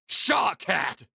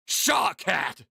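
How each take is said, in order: First: It is said in an angry way. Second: It is said in an angry way.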